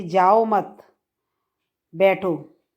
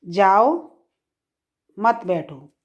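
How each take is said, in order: First: "जाओ मत" as one unit, long pause, then "बैठो"; pause after मत. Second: "जाओ" alone, long pause, then "मत बैठो"; pause after जाओ. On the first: Teacher showing double meaning, pause after "मत". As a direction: break after "मत", then "बैठो" alone, falling. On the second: Teacher showing double meaning, pause after "जाओ". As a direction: break after "जाओ", "मत बैठो" together, falling. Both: Shown as a demonstration. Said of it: "अब इसका दूसरा अर्थ".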